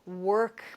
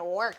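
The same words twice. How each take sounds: First: The word is said softly and warmly. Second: The word is said hard and heavily. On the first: Work is something done with love. "look at how that changes even the way that I say it" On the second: Work is a hard, unwelcome burden. "rather than work"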